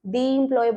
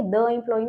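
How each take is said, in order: First: Long ee in "the employee"; "the" as dee. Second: Short schwa in "the employee"; wrong "the" as duh. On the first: Teacher showing students what we say, "the" as "dee". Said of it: "तो हम the employee बोलेंगे". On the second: Teacher showing what we don't say, "the" as "duh". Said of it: "the employee नहीं बोलेंगे". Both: Shown as a demonstration.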